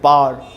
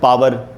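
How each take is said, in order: First: Said as one long syllable ending in r. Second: Said as two full syllables ending in r. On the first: This is how English-medium speakers say it. "English medium बोलते हैं पार" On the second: This is how Hindi-medium speakers say it. "मैं बचपन में बोलता था पावर"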